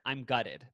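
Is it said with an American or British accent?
American. It is said in an American accent.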